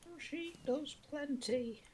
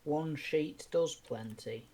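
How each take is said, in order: First: High, slow ad jingle voice; advert announcer. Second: Ad voice. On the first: Quoting a kitchen roll advert to friends, high and slow. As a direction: sing it like a TV ad slogan. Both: Retold or imitated. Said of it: "That was actually an advert".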